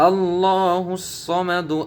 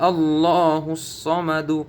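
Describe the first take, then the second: No difference in how they are said.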